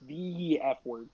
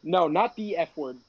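First: "The F word" slow and weighty, falling; stress on F word. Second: Said in the usual way. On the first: Shown as a demonstration. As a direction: stretch "The F word" out gravely.

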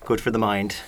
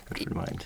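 First: Said in the usual way. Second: Whispered, unvoiced repeat. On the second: Shown as a demonstration. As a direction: breathe it out as a whisper. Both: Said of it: "repeats it whispered".

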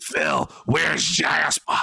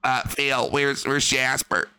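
First: Slow, drawn-out yell for the cat; hammed-up wife shouting from another room. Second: A first, plain try at the worried wife; just ask where the cat is; plain wife question. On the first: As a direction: call out for Jasper like a worried wife. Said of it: "Oh, sorry". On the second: Pretend. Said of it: "Cat would go like".

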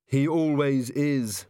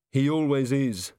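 First: Slow, weary sigh through the words. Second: Said in the usual way. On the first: A narrator's reading. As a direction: sigh it out, resigned to Carrot. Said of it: "sighed Angua". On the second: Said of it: "said Angua".

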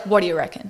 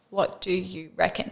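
First: "What do you reckon" slurred into one quick word; run together. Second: Slow, careful "What do you reckon", every word sounded apart; each word separate. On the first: Showing co-host how they really say it, "What do you reckon" run together. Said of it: "Oh, we're like". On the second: Showing co-host how many words the saying holds, "What do you reckon" slowly separated. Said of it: "how many words are actually in that". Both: Shown as a demonstration.

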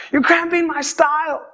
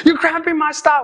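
First: Pitched-up petulant repeat to himself; sulky teen grumble. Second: Put-on stomping around his room, a teenager sulks at dad: pouty, pitched-up grumble; sulky teen grumble. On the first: Retold or imitated. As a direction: alone in his room, muttering about dad: mild pouty complaint. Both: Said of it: "march in my room, like, go around in circles and be like".

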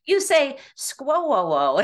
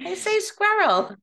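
First: Drawn-out Midwest squirrel as skwoo-oo; slow, laughing mock of a Midwest squirrel; mocking Midwest accent. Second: Squirrel said as a crisp skwer-l, high and bright; proudly says her own Boston squirrel. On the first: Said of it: "she's like". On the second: Shown as a demonstration.

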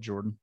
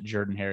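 First: Said in the usual way. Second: Jordan said as "JUR-dan"; local pronunciation. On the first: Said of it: "even though it's spelled Jordan". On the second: Shown as a demonstration. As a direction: say Jordan with an "ur" in the first syllable, rhyming with burden. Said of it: "they pronounce it Jordan Hare".

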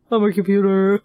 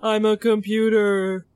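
First: Imitating the spooky computer; a hint of robot. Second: Spooky computer voice, lightly done; robot voice. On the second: Retold or imitated. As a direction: echo it like a creepy computer. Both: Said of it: "this scary robot voice".

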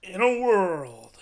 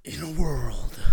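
First: Loud, slow booming trailer announcer; projected trailer voice. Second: Loud, husky trailer narrator; trailer voice from the diaphragm. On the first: Host told to project more, booming trailer voice. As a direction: project it, stretched right out. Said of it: "Project more". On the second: Host coached to breathe deep, trailer voice from the diaphragm. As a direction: push it out from deep down. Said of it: "The diaphragm". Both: Shown as a demonstration.

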